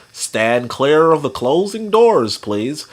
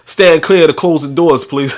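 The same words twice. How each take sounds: First: Slow, measured train announcement. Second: Looser, livelier train announcement; imitated conductor, casual and amused. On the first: Acted. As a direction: enunciate it slowly like a conductor.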